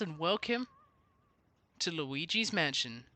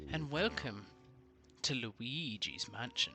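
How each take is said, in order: First: It is said in a plain everyday voice. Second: It is said in a put-on spooky voice.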